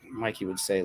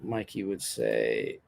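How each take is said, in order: First: Said in the usual way. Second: Mock deep voice. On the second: Voicing a friend's catchphrase.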